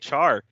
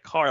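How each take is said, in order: First: The word begins with a ch sound. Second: The word begins with a k sound. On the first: "I say char" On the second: "my friend was like car"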